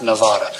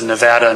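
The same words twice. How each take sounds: First: The name is said the way outsiders say it. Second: The name is said the way locals say it. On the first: The speaker calls it wrong. "not Nevada" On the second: The speaker calls it right. "the locals pronounce it Nevada"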